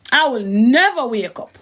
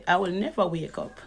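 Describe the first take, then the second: First: "never" drawn out slowly with a swooping tune; stress on never. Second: Laughing aside. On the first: Repeating the claim for emphasis, "never" stretched out slowly. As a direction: lean hard and long on "never". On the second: Woman scoffing that she will never wake up, laughing quietly. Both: Real, not acted.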